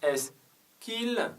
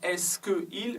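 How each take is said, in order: First: The vowel of 'que' is dropped before 'il'. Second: The vowel of 'que' is pronounced before 'il'. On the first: The speaker calls it right. "mais on dit est-ce qu'il" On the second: The speaker calls it wrong. "on ne dit pas est-ce que il"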